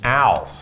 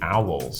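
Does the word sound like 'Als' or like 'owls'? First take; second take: Als; owls. First: The word sounds like the name Al. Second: The word has the usual 'ow' vowel.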